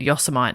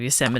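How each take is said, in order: First: The word ends like 'mite', rhyming with Vegemite. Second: The word ends with a separate 'mitty' sound. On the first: The speaker calls it wrong. "my art teacher said Yosemite" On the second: The speaker calls it right. "instead of Yosemite"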